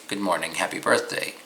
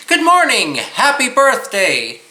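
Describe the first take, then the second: First: Said in the usual way. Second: High, loud, bouncing singsong greeting; lively sing-song greeting. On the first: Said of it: "you wouldn't say". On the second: Shown as a demonstration. Teacher demoing the tune to copy, high and lilting. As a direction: greet them with a bright, lilting lift. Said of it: "imitate the intonation and inflection".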